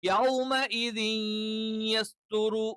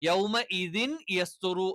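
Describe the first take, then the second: First: The n sound merges nasally into the y. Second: The n sound is kept separate before the y. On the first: This is how it should be recited. "അത് നമ്മൾ പാരായണം ചെയ്യേണ്ടത്" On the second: This is how it is written. "എന്നാണ് എഴുത്തിലുള്ളത്"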